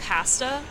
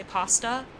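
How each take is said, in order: First: "pasta" with a short a as in "cat"; old pronunciation. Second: "pasta" with an open ah, PAH-stuh; trained pronunciation. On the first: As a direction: say "pasta" with a flat front 'a', PASS-tuh. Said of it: "I train myself out of saying pasta". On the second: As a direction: say "pasta" with the a of "father". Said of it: "to say pasta". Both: Shown as a demonstration.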